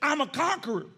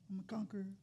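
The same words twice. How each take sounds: First: It is said with force and strength. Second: It is said weakly and timidly.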